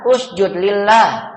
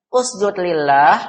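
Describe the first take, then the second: First: USJUD LILLAH as a slow, firm order, dropping at the end; slow imperative with a final fall; commanding. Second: LILLAH dips, then rises as a question; wrong-way demo, lillah lifting like a query; question intonation. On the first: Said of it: "menyuruh atau memerintah". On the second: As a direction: ask "Usjud lillah" slowly, ending upward. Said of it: "itu pertanyaan". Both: Shown as a demonstration.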